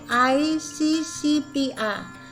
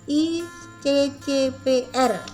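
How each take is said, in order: First: The letters are spoken with English letter names. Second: The letters are spoken with Indonesian letter names. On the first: "kalau itu dibaca dalam bahasa Inggris" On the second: "tapi dalam bahasa Indonesia"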